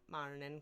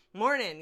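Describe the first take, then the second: First: "Morning." dropped lower and softer in a light Scottish lilt; quiet, lightly Scottish "Morning."; soft Scottish accent. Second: Loud "Morning." in a hammed-up Scottish accent, rolled r; mock Scottish "Morning." called out loud. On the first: Acted. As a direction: murmur "Morning." in a faint mock Scottish accent. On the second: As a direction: bellow "Morning." like a mock Highlander. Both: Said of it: "I'm adopting a slight Scottish accent".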